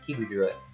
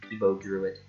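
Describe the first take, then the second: First: The name ends with an 'oo' vowel. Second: The name ends with an 'oh' vowel. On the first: The speaker calls it right. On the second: The speaker calls it wrong.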